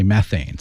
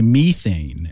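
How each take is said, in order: First: "methane" said as METH-ayn; American "methane", first vowel as in "met"; American pronunciation. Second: "methane" said as MEE-thayn; British "methane", first vowel as in "me"; British pronunciation. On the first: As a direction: say "methane" with a short e in the first syllable. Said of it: "Americans say methane". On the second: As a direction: say "methane" with a long ee in the first syllable. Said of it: "British people say methane". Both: Shown as a demonstration.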